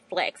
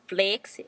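First: The word is said in a plain everyday accent. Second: The word is said in an imitated accent. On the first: "they don't say flex" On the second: "They say flex"

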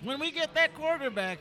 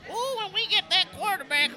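First: It is said in his normal voice. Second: It is said in a put-on old man voice.

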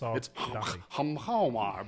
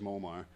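First: The name keeps all of its original sounds. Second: The name is said with some sounds dropped. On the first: This is the name as it really is. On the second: This is how most people casually say it.

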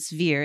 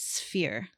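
First: The ph is voiced, like a v. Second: The ph is unvoiced, like an f. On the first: The speaker calls it wrong. "It's not" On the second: The speaker calls it right. "I say it's not voiced like a V is"

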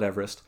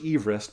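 First: The name is said the common American way. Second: The name is said the original British way. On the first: This is how people commonly say the mountain's name. "but we all call it Everest" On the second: This is how the man himself said his name. "the dude's name was actually Sir George Everest"

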